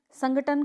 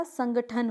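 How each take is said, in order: First: संगठन with plain T, sangaTan, pitched up; wrong pronunciation. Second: संगठन with aspirated Th; correct pronunciation. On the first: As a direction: demonstrate the mistake संगठन without aspiration. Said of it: "कुछ नहीं होता". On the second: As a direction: model संगठन as sangaThan. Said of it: "होता है". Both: Shown as a demonstration.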